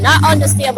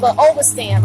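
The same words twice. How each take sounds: First: "Not understand" with a firm push on "Not"; dismissing the word "understand" with a pointed "Not"; stress on NOT. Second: "overstand" with the weight on "over"; correcting "understand" to "overstand" with stress on "over". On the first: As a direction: lean on "Not" to reject "understand". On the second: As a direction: hit "over" in "overstand" as the better word. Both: Shown as a demonstration.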